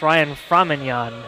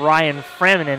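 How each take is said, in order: First: The surname ends with a 'nyon' sound. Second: The surname ends with a plain 'nen' sound. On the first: The speaker calls it right. "it's Ryan Framignon" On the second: The speaker calls it wrong. "It is not Ryan Framinen"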